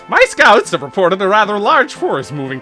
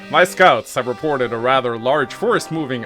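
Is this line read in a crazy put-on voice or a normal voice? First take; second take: crazy; normal. First: It is read in an exaggerated crazy character voice. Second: It is read in the speaker's ordinary voice.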